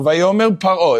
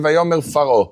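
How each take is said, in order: First: The second word begins with a p sound. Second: The second word begins with an f sound. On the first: The speaker calls it right. "is it paro or faro? Paro" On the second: The speaker calls it wrong. "It's never going to say vayomer faro"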